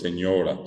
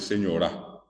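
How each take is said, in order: First: The stress is on the middle syllable. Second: The stress is on the last syllable. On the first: It is said the standard Spanish way. "Lo correcto para nosotros es señora, señora, palabra llana" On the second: It is said the Guarani way. "el acento está en la A, final"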